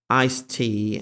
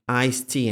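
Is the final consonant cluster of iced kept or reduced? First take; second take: kept; reduced. First: Both final consonants of iced are pronounced. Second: The final consonant cluster is reduced to one. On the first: "expressions such as iced tea" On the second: "sound like"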